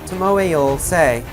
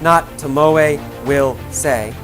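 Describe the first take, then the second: First: Will is reduced and joined to Tomoe. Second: Will is said in full as a separate word. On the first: The speaker calls it right. "did you hear that?" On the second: The speaker calls it wrong.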